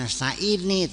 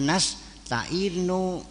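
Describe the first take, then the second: First: The word ends with an 'ee' vowel. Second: The word ends with an 'oo' vowel. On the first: The speaker calls it wrong. "bukan nasta'ini" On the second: The speaker calls it right. "tapi nasta'inu"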